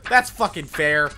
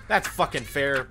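First: Sarcastic. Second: Said in the usual way. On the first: Real, not acted.

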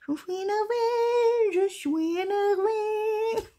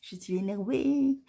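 First: Very high, slow, drawn-out chant; sung, wail it as a long high tune; sung, sing-song annoyance. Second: Understated statement of annoyance; annoyed. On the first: Sung, vlogger venting to viewers, annoyed sing-song wail. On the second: Vlogger admitting irritation to viewers, mildly annoyed. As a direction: say it plainly, a touch put out. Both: Real, not acted.

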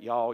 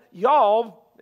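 First: "y'all" dropped low and soft, Southern vowel. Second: "Y'all" punched louder, Southern drawled vowel. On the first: Shown as a demonstration. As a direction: toss off "y'all" quietly, Louisiana style. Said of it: "L A, we can say that". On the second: Retold or imitated. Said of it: "that's Southern".

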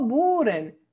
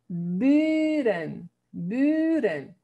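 First: 'buren' with a Spanish oo; 'buren' with a back u in the first syllable; wrong vowel demo. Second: 'buren' with a long rounded ü; drawn-out 'buren', ü rather than oo; correct long ü. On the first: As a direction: show the mistake: 'buren' as 'booren'. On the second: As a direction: model 'buren' slowly, holding the front vowel. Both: Shown as a demonstration. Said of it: "No buren".

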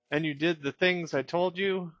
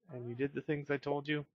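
First: The bear's line a bit higher; voicing the bear. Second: Said in the usual way. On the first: Reading the bear's dialogue, lightly voiced higher. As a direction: read it in a light character voice.

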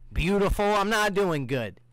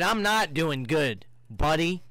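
First: Sarcastic answer to the flirty greeting; mock sweet reply. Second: "not" leaned on, slowly, as a pretend reply; stress on not. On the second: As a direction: drag out "not" as a sarcastic answer. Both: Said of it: "I'ma say".

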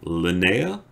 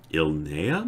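First: Linnea? said "luh-NAY-ah" with a questioning rise; Linnea? asked up, stress on the middle syllable; trying "Linnea?" as a gentle question; corrected name. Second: Ilnea tried as "ILL-nay-ah", hesitant; testing "Ilnea" aloud, unsure; unsure first try at a name. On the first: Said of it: "I think it's Linnea". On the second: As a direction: Ilnea said tentatively, stress on the first syllable. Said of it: "I don't know how to say her name". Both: Shown as a demonstration.

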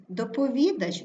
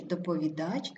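First: ДопоВІдач, stressed ВІ then fall; stress on third syllable. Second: ДоповіДАЧ, rising on stressed ending; stress on last syllable. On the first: Teacher showing double stress, stress on ВІ. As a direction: hit ВІ in доповідач. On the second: Teacher showing double stress, stress on ДАЧ. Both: Shown as a demonstration. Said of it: "слова із подвійним наголосом".

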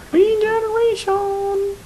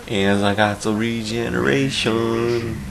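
First: High, slow cowboy yelp; Western accent. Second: Slow Western drawl; Western accent. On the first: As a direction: whoop it like a cowboy. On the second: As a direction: drawl it like a cowboy. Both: Pretend. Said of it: "talking in, like, a Western accent".

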